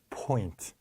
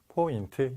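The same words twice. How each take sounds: First: The first sound has a strong puff of air. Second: The first sound is plain, Korean style. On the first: "무성음이란 거는 공기로 내는 거기 때문에" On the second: "이거는 우리나라 말이에요"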